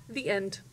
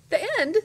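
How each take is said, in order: First: Said in the usual way. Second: High, loud indignant question; indignantly. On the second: A narrator's reading. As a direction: echo it in outraged disbelief. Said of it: "Abilene indignantly".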